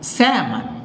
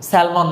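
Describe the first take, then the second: First: The L sound is silent in the middle. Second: The L sound is pronounced in the middle. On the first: The speaker calls it right. "এটাকে বলে স্যামন" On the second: The speaker calls it wrong. "স্যালমন তো একেবারেই না, এটা একেবারেই ভুল"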